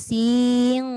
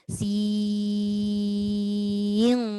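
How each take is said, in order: First: The vowel is cut short straight into n. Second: The vowel is held long before the n. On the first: The speaker calls it wrong. "Mana enam harakatnya? Sin ya. Tak ada. Tak cukup" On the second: The speaker calls it right. "panjangkan ya dulu"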